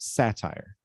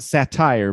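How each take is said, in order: First: The stress is on the first syllable. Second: The stress is on the second syllable. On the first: The speaker calls it right. "stress syllable is sa" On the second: The speaker calls it wrong. "Not satire"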